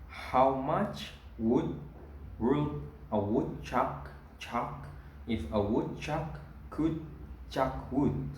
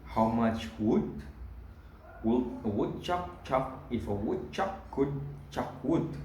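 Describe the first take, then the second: First: It is said slowly. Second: It is said at normal speed.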